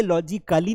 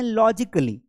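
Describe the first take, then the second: First: "लॉजिकली" with a long "kaa"; wrong pronunciation demo. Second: "लॉजिकली" with short "kuh"; correct pronunciation demo. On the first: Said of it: "लॉजिकली नहीं बोलते हैं". ("लॉजिकली" में लंबा "का") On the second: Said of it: "हम बोलते हैं लॉजिकली". ("लॉजिकली" में छोटा "क") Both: Shown as a demonstration.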